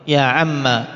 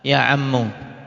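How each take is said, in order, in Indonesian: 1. Kata itu berakhir dengan vokal a pendek. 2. Kata itu berakhir dengan vokal u pendek. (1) "dengan memfathah... alif ini di buang" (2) "disikapi seperti munada mufrad"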